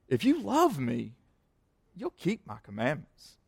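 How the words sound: It sounds like a warm, loving promise.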